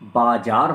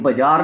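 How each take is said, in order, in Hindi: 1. यह शब्द सावधानी और मानक तरीके से बोला गया है। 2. यह शब्द लापरवाही और जल्दबाज़ी से बोला गया है। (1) "बाजार होता है" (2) "ये बाजार नहीं होता"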